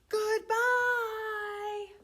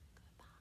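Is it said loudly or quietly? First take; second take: loudly; quietly. First: It is said loudly. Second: It is said quietly.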